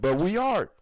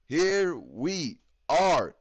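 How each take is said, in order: First: Said in the usual way. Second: Drawn-out, low and heavy; grim slow repeat; slow resigned. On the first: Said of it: "repeats the phrase". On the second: Shown as a demonstration. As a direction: let each word sink, slowly. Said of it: "slow resigned repeat".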